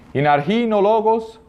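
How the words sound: It uses the modern Greek pronunciation. "primeiro com a pronúncia mais moderna"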